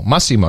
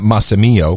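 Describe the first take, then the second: First: The name ends plainly in 'mo'. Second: The name ends with an added 'ee-o' sound. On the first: The speaker calls it right. "It's Massimo" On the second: The speaker calls it wrong. "not Massimio"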